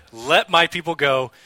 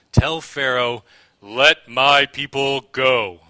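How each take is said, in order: First: Louder, firm command at a brisker pace; loud proclamation. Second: Slow, booming, commanding proclamation, each word drawn out; Charlton Heston impression. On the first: Acted. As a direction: call it out as an order. Repeats line after his impression. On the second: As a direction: thunder it out slowly like a grand epic prophet. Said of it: "That was my best Charlton Heston impression".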